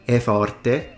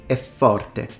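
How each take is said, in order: No difference in how they are said.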